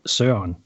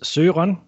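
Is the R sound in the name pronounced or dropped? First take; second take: dropped; pronounced. First: The R sound in the name is dropped. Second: The R sound in the name is pronounced. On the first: This is the informal form of the name. "the informal way is Søren, where you kind of not say the R" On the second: This is the formal form of the name. "The formal way is Søren"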